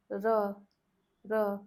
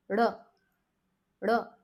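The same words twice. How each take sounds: First: "R" with the tongue tip just tapping the palate, no curl; plain r. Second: "R" with curled tongue flicked out onto the teeth; rolled r. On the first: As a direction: tap "R" lightly, no rolling. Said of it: "we did not roll the tongue at all". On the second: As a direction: curl in, then click out the "R". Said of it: "curl it outwards and make it click". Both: Shown as a demonstration.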